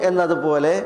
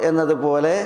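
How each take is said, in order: No difference in how they are said.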